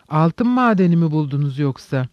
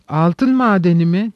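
First: Said in the usual way. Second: Exclaimed question, a little raised; mild exclamation. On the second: Acted. Mitya echoes Perhotin's gold mine question, exclaiming. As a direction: cry it out in mild surprise, rising at the end. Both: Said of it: "diye haykırdı".

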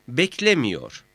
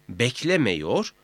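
First: "beklemiyor" with i before -yor, falling; narrowed vowel. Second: "Beklemiyor" said as beklemeyor, rising; unnarrowed E vowel. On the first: ("beklemiyor", daralmış i ile) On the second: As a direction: keep an e before -yor in "Beklemiyor". ("Beklemiyor", i yerine e ile) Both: Shown as a demonstration. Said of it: "mameyi de etkiler".

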